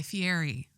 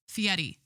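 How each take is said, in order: First: Said in the usual way. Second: Fieri with the R tapped, like "fee-EH-dee"; corrected pronunciation. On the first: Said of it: "Fieri instead of Fieri". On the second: Shown as a demonstration. Podcaster correcting the chef's surname, Fieri said as "fee-EH-dee". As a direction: tap the R in Fieri so it sounds nearly like a D. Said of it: "correcting people when they say".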